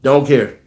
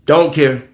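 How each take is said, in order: Both takes have the same delivery.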